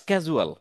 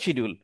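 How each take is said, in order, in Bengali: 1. এটি 'skaj' দিয়ে শুরু, একটি k আর j ধ্বনি। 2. এটি 'shid' দিয়ে শুরু, শব্দের মাঝে একটি d ধ্বনি। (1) "সিজিউল বা স্ক্যাজুয়াল" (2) "আমরা শিডিউল বলি ... but not a right language"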